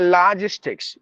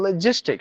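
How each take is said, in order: First: The first vowel is long. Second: The first vowel is short. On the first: The speaker calls it wrong. "We say logistics" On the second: The speaker calls it right. "It should be logistics. Short sound"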